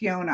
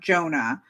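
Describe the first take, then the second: First: The name begins with a Y sound. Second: The name begins with a J sound. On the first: "I think it's Yona" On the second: "I know the J. It's not Jonah"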